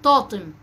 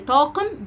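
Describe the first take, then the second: First: The middle consonant is made at the front. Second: The middle consonant is made at the back. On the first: The speaker calls it wrong. "بينطقها طاطم" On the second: The speaker calls it right. "كلمة زي طاقم"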